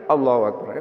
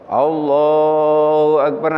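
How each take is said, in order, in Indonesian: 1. Frasa itu diucapkan dengan cepat dan singkat. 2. Frasa itu diucapkan dengan lambat dan panjang. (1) "Kalau takbirnya begini Allahu Akbar, kayak gitu kapan niatnya?" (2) "takbir itu agak lama-lama ... selalu panjang-panjang ya"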